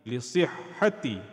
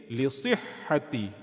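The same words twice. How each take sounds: First: The word ends with an 'i' vowel. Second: The word ends with an 'i' vowel.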